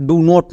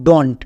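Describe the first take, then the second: First: "do not" as two full words; uncontracted wrong reading. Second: "don't" run together as one syllable; contracted pronunciation. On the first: Teacher showing what not to read, uncontracted "do not". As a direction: say "do not" with both vowels sounded. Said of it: "do not না". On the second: Teacher showing how two words merge, contracted pronunciation of "don't". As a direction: say "don't" joined, ending in nt. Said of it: "এর উচ্চারণটা কী করবো". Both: Shown as a demonstration.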